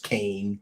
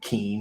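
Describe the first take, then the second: First: The vowel sounds like the one in 'cane'. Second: The vowel sounds like the one in 'bean'. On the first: The name is said the way its owner prefers. The speaker calls it wrong. "people don't just get to make up, you know, pronunciation" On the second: The name is said the way it is spelled. The speaker calls it right. "It's how it's spelled. That's how it should be said"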